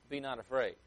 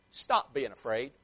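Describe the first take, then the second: First: Said in the usual way. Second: Slow, mildly exasperated "what's wrong with you" tone; a touch of reproach, each word drawn out. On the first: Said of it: "I changed my tone of voice". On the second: Acted. Jesus to his frightened disciples, mildly exasperated. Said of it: "The tone of voice that I tried".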